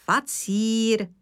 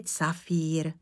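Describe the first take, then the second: First: "facír" said slowly, starting with f; slow, corrective "facír"; correct pronunciation. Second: "cafír" with c and f swapped; slow, rejected "cafír"; mispronunciation quoted. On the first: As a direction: correct it to "facír", f first, c in the middle. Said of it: "ne cafír". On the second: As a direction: slowly echo the mistaken "cafír", c first. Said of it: "Ale facír". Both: Acted.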